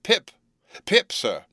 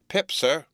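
First: Put-on louder, high frightened boy's call; giving it mouth. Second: High, anxious little answer; frightened boy. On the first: Boy repeats his name louder for the convict, anxious shout. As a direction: call the name out on demand, pitch leaping. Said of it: "Give it mouth". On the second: Boy gives his name to the convict, anxious answer. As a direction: answer up at once, a touch scared. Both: A narrator's reading.

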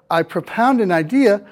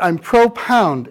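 First: Said in the usual way. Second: "pro-pound" with a long stressed PROH; full oh vowel in "pro-pound"; full PRO prefix. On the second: Shown as a demonstration. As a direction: say "pro-pound" as two units, PRO and pound. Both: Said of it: "but we say it differently".

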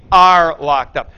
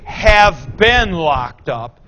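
First: "are" punched loud; stressed ARE. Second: Slow, drawn-out have been locked up; wrong tense. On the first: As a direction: hit the word "are" in "are locked up" hard and loud. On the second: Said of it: "don't say". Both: Shown as a demonstration.

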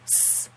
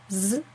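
First: S as a sharp hissing "sss"; voiceless S. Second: S as a voiced buzzing "zzz". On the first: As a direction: make S hiss like a snake, without voice. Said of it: "das stimmlose S". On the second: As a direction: let S hum softly like a bee. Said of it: "das stimmhafte S". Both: Shown as a demonstration.

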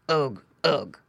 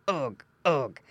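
First: Low piggy grunts; two short pig grunts; grunting pig. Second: Pig grunts. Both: A narrator's reading. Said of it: "grunted Squinty".

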